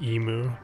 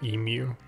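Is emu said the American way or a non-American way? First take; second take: American; non-American. First: The word is said with an American pronunciation. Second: The word is said with a non-American pronunciation. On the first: The speaker calls it wrong. "Americans say emu" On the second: The speaker calls it right. "instead of emu"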